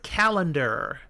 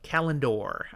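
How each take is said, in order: First: It sounds like the everyday word calendar. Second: It does not sound like the word calendar. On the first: The speaker calls it wrong. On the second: The speaker calls it right.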